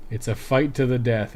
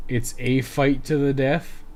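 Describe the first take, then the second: First: Said in the usual way. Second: Slow, with "a" said as a full "ay"; stress on A. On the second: Shown as a demonstration. Player correcting the game's typo, stress on "a". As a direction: lean on "a", pronounced like the letter A. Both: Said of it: "It should be".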